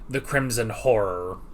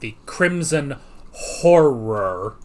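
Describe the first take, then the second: First: The title is said quickly with blurred sounds. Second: The title is said slowly with careful enunciation. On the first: The speaker calls it wrong. "when I say it really fast" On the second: The speaker calls it right. "more enunciate"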